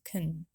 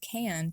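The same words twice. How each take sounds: First: The word is said with a reduced vowel. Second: The word is said with a full vowel. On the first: "we reduce the helping verb can to can" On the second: "the helping verb can"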